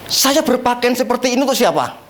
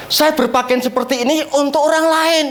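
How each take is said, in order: First: "untuk siapa" falling away at the end; question to congregation. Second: "orang lain" held up in pitch; emphatic answer. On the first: Preacher asking the congregation, "siapa" left falling as a question. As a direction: pose it evenly, letting "siapa" drop. Rhetorical question, answered in next line. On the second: Preacher answering his own question, "orang lain" raised for emphasis. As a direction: lift the line towards "orang lain". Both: Shown as a demonstration.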